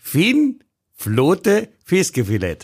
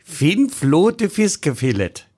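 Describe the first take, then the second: First: Fin Flote Fiskefilett slow again, stress on "Fin"; mock Norwegian. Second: Fin Flote Fiskefilett slowly, with a Norwegian ring; mock Norwegian. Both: Shown as a demonstration. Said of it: "Das heißt, feine Sahne Fischfilet".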